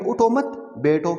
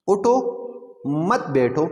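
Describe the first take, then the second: First: اٹھو مت run together, a break, then بیٹھو alone; pause after مت. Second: اٹھو raised and left hanging, full stop, then مت بیٹھو together; pause after اٹھو. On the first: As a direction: join اٹھو to مت and stop before saying بیٹھو. (اٹھو مت ملا کر، وقف، پھر بیٹھو) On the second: (اٹھو پر وقف، پھر مت بیٹھو ملا کر) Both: Shown as a demonstration. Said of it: "جب ہم یہاں وقف کریں گے".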